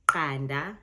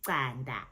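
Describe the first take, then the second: First: QANDA with a proper Q click, punched louder; crisp click on the Q of qanda; proper Zulu click. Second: Qanda with the Joburg-style Q, drawn out; Joburg Zulu pronunciation. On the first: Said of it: "proper Zulu". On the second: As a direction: say qanda the Joburg way, slower, softening the Q click. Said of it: "it's that Q sound". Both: Shown as a demonstration.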